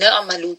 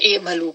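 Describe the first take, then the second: First: The word joins the previous word's final 'na'. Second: The word starts with its own 'i' vowel. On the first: "वैसे तो ला युमिनून न अमलू पढ़ेंगे" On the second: "जब आप इस वर्ड को अलहदा से पढ़ेंगे तो फिर इमलू पढ़ेंगे"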